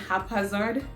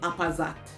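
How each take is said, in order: First: It is said with a standard pronunciation. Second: It is said with a Jamaican pronunciation. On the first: The speaker calls it right. "Instead of saying haphazard" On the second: The speaker calls it wrong. "she said haphazard"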